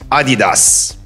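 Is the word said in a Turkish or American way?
Turkish. It is said the Turkish way.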